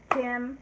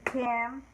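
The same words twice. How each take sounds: First: September said in three clapped beats, Sep-tem-ber; clapped syllables. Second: Septiembre said in clapped beats, sep-tiem-bre; clapped syllables. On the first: Teacher claps September for the class. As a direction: clap out each part of September. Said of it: "we clap each syllable". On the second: Teacher claps Septiembre's word parts with the class. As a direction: clap each part of Septiembre. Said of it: "let's do the word part for that". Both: Shown as a demonstration.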